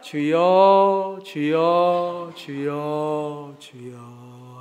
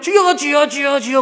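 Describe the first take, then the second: First: It gets slower and slower toward the end. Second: It is said at a steady pace.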